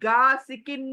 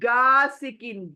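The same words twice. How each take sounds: No difference in how they are said.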